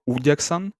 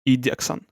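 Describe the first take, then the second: First: The first vowel sounds like 'oo'. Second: The first vowel sounds like 'ee'.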